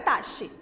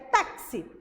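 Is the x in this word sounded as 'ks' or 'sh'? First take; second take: sh; ks. First: The x is a hushing 'sh' sound. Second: The x is a 'ks' sound. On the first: The speaker calls it wrong. "ele não sai com chiado, não é taxi" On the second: The speaker calls it right. "é táxi"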